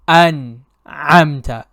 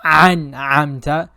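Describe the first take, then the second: First: An'amta with a clean glottal Hamza; correct Hamza. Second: An'amta with a throaty Ain instead of Hamza; mistaken Ain. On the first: Teacher demonstrating proper Hamza in An'amta. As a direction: start An'amta with a light catch. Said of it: "instead of". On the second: Teacher showing the common Ain mistake in An'amta. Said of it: "reciting both of them as the letter Ain". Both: Shown as a demonstration.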